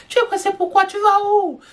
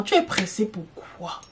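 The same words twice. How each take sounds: First: Much higher, incredulous teasing question; mock exasperated. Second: Said in the usual way. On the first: Scolding a gulping diner at a restaurant, mock incredulous. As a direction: pretend to be shocked at their rush.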